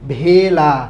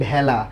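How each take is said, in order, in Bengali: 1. প্রথম স্বরধ্বনিটি close e ধ্বনি। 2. প্রথম স্বরধ্বনিটি open ae ধ্বনি। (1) "ভেলা বলি না" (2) "কি বলি, ভেলা"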